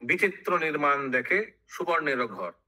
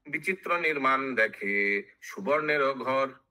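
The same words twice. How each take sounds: First: Said in the usual way. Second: Measured chant with stretched syllables; sing-song epic verse; verse recitation. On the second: Acted. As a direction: intone the line like scripture. Verse chanted before its explanation.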